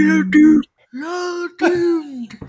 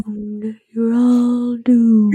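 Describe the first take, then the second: First: Slow, higher ominous drawl; ominous doom prophet. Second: Slow ominous raspy drawl; ominous doom prophet. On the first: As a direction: wail the doom warning slowly. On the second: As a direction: drag out the doom warning. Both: Retold or imitated.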